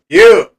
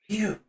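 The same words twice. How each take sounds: First: It is said in a plain, normal voice. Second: It is said in a dark, slurred voice.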